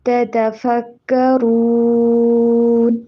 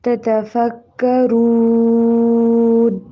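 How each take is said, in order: The two takes are said the same way.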